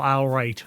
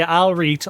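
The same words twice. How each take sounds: First: "I'll write" as "al-right", flat a at the start; local pronunciation. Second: "I'll read" as "al-reet", loud, long ee; local pronunciation. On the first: Streamer showing what we either say, "I'll write" as "al-right". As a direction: open "I'll write" with "al", keep the right vowel. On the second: Streamer showing what we either say, "I'll read" as "al-reet". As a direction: hit "I'll read" loudly as dialect all right. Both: Shown as a demonstration. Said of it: "we either say".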